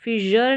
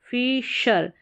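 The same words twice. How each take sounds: First: फिशर mispronounced with "j", as "fi-jur"; wrong pronunciation. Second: फिशर with "sh", as "fee-shur"; correct pronunciation. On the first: Teacher showing learners the mistake, फिशर with voiced j. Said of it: "ज sound नहीं". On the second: Teacher modelling फिशर for learners, clear "sh" sound. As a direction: say फिशर with an unvoiced "sh". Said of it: "यहाँ पर श करके". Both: Shown as a demonstration.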